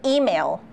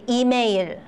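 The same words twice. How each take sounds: First: It is said with smooth English pronunciation. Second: It is said with hard, choppy Korean syllables.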